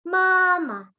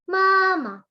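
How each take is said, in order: The two takes are said the same way.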